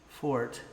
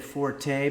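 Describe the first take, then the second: First: The word is said as a single syllable. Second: The word ends with an extra vowel syllable. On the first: "so it would be pronounced fort" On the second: "some people say forte"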